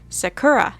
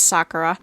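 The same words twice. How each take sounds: First: The stress falls on the English-dub syllable. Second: The stress follows the original Japanese pattern. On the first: The speaker calls it wrong. "They're putting the emphasis on the wrong syllable" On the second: The speaker calls it right. "I know it's Sakura"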